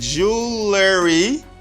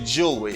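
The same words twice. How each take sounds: First: An extra letter sound is pronounced in the word. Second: The extra letter sound is dropped from the word. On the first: The speaker calls it wrong. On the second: The speaker calls it right.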